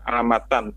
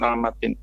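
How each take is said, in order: First: The word ends in the sound -an. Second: The word ends in the sound -in. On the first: The speaker calls it right. "dibaca alamatan" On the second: The speaker calls it wrong. "bukan alamatin"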